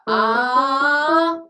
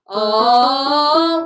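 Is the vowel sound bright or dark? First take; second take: bright; dark. First: The vowel sounds high, light and bright. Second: The vowel sounds low, deep and dark. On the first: The speaker calls it wrong. "your larynx, which is right here, was slightly high. So, it was more of a ah, and we don't want that sound" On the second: The speaker calls it right. "We want ah, we want a deeper, darker sound"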